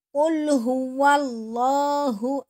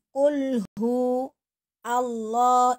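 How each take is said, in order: First: The words flow together without any break between them. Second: The words are chopped apart with breaks between them. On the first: The speaker calls it right. "kalau disambung" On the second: The speaker calls it wrong. "itu kalau dipisah"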